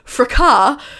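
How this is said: The word is said in the British way. "although the British pronounce it fracas"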